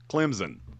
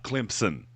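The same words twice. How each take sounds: First: It is said with no p sound after m. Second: It is said with a p sound after m. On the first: The speaker calls it right. "there is no P in Clemson. It's Clemson" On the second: The speaker calls it wrong. "not Clemson"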